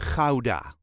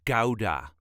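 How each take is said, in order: First: The word begins with a harsh throaty sound. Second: The word begins with a hard g sound. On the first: The speaker calls it right. "this is the way us Dutchies say Gouda" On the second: The speaker calls it wrong. "not Gouda or Gouda. That sounds very silly to us"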